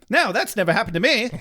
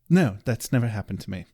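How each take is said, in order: First: It is said in a voice like Wesley. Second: It is said in a voice like Giles.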